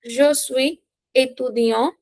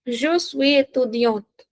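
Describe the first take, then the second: First: "étudiant" ending on an open nasal vowel, silent t; masculine ending. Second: "étudiante" with its final consonant sounded; feminine ending. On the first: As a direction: slowly, let "étudiant" end without a consonant. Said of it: "if the noun is masculine". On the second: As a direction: slowly, close "étudiante" on an audible n-t. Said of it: "If the noun is feminine". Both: Shown as a demonstration.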